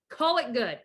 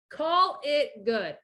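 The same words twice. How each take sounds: First: Said in the usual way. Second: "Call it good" drawn out slowly, stress on "call"; slow emphatic repeat. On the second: Shown as a demonstration. Repeating advice to a listener, slow and deliberate.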